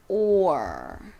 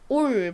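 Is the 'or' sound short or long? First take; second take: long; short. First: The sound is drawn out and longer. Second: The sound is short and plain. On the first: The speaker calls it right. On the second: The speaker calls it wrong.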